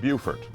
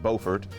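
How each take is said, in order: First: The first syllable sounds like 'beautiful'. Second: The first syllable does not sound like 'beautiful'. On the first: This is how the South Carolina town says it. "we in South Carolina pronounce it" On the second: This is how the North Carolina town says it. "They pronounce it"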